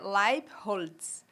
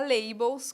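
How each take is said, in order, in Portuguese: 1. O sobrenome é pronunciado com a pronúncia alemã. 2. O sobrenome é pronunciado como está escrito. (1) "ele tem origem alemã e a pronúncia é Leibholz" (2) "como escreve para facilitar a vida de todo mundo"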